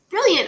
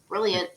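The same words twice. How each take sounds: First: The word is said in a sincere, genuine tone. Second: The word is said in a sarcastic, mocking tone. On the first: Something is truly great. "brilliant could be two different ways" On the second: Something is actually bad. "you can sort of be sarcastic with it"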